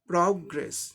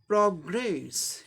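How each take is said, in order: First: The stress is on the first syllable. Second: The stress is on the second syllable. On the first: It is used as a noun. "First syllable को जोर देके pronounce करना पड़ेगा" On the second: It is used as a verb. "दूसरे syllable को जोर देके pronounce करना पड़ेगा"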